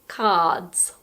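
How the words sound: The R sound after the vowel is silent. "in the U K and Australia, we don't pronounce the R"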